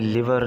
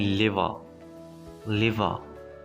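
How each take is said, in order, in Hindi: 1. आख़िरी आर की आवाज़ बोली जाती है। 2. आख़िरी आर की आवाज़ साइलेंट है। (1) "इसको आपने लिवर नहीं पढ़ना" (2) "इसमें आर साइलेंट है, इसको आपने लिवर लिवर इस तरह से पढ़ना है"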